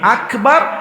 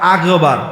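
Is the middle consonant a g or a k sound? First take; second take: k sound; g sound. First: The middle consonant is a clear k sound. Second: The middle consonant is a voiced g sound. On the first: The speaker calls it right. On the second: The speaker calls it wrong.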